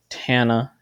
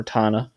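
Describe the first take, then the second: First: TANA with the A of "cat"; Tana with short A. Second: TANA with the A of "father"; Tana with broad A. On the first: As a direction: say Tana as TAN-uh, flat-A vowel as in "tan". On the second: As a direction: say Tana as TAH-nuh, open back vowel. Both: Shown as a demonstration. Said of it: "however you pronounce it".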